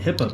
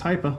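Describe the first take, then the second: First: The first syllable does not sound like 'high'. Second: The first syllable sounds like the word 'high'. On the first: The speaker calls it wrong. "I was calling it HIPAA before because I just didn't know" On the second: The speaker calls it right. "you say the high, like high performance"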